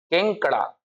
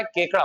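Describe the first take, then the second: First: केंकड़ा said with a nasal n before the k, keng-kda; the mistaken केंकड़ा, nasalised first syllable; teacher voices the common wrong form केंकड़ा with a nasal ng; wrong nasal version. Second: केकड़ा said without any nasal, plain ke-kda; the corrected केकड़ा, clean first syllable with no n sound; teacher gives the right form केकड़ा with no nasal; correct pronunciation. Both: Shown as a demonstration. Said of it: "केंकड़ा नहीं होता है".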